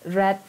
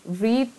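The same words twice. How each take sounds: First: The vowel is short, as in 'red'. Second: The vowel is long, as in 'reed'. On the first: It is the past form of the verb. "masa lampau" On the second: It is the present form of the verb. "the pronunciation is different"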